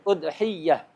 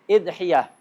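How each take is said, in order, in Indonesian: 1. Dimulai dengan u dan y-nya ganda. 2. Dimulai dengan i dan y-nya tunggal. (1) "Atau ya-nya di tasdid" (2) "Atau hamzahnya di kasrah. ... ya-nya takhfif"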